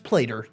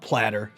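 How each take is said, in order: First: The first vowel is long, like in 'later'. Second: The first vowel is short, like in 'latter'. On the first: The speaker calls it right. "It's it's Plater" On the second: The speaker calls it wrong. "not Platter"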